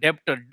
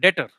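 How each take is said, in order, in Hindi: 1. 't' से पहले 'b' की आवाज़ सुनाई देती है। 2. 't' से पहले 'b' की कोई आवाज़ सुनाई नहीं देती। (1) "बहुत लोग इसको डेप्टर बोलते हैं" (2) "जब हम बी को खामोश कर देते हैं"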